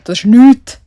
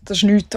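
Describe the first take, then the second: First: Blurted loud, "nichts" rising high; loud amazed exclaim. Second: Said in the usual way. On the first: Real, not acted. Podcaster amazed at her screen time, loud and rising.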